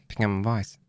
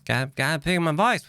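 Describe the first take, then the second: First: Said in the usual way. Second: Pitched up higher; raised voice. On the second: Shown as a demonstration. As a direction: lift the voice up high.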